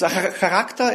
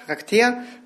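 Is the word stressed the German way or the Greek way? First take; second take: German; Greek. First: The word has its usual German stress. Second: The word has its original Greek stress.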